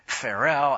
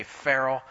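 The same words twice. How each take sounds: First: Farrell with the stress moved to the second syllable; newer pronunciation. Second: Farrell with the stress on the first syllable; anglicized pronunciation. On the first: Showing the audience how others now say it, Farrell stressed on the end. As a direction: say Farrell as fa-RELL, punching the ending. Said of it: "everybody else now is saying Farrell". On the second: Explaining to the audience how he used to say it, Farrell in anglicized form. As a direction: say Farrell the plain English way, front-stressed. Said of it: "I used to say Farrell".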